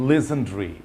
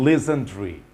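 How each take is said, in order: Both takes have the same delivery.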